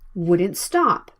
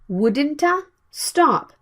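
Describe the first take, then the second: First: The T stops and moves straight into S. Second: A small extra vowel follows the T. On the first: The speaker calls it right. "You need to stop the T sound and move to the S sound right away" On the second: The speaker calls it wrong. "If you say it like wouldn't-a stop, it's not easy to catch the sound"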